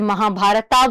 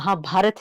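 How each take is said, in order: First: The word ends with an added final 'a' vowel. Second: The word ends on the final 't' consonant. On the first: This is the English-style way of saying it. "T के आगे ए लिखा है तो उसको भारता, जैसे महाभारता बोलेंगे" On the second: This is how it is said in Hindi. "वो महाभारत है हमारे हिंदी में"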